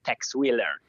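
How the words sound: The name is said in an American style. The speaker is steeped in American culture. "se sei proprio immerso nell'ambiente americaneggiante puoi dire"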